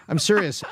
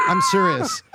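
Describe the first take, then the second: First: Said in the usual way. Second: Laughing squeal. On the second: Real, not acted. Laughing while insisting, squeals.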